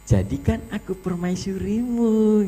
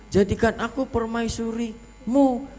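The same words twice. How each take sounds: First: It is said in a coy, flirtatious tone. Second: It is said in a harsh, angry tone. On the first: The speaker calls it right. "kayak centil" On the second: The speaker calls it wrong. "Lah kok malah marah? Jangan galak"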